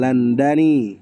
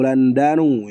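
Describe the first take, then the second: First: The word ends with an 'i' vowel. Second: The word ends with a 'u' vowel. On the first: "bukan Landani" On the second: "atau Landanu"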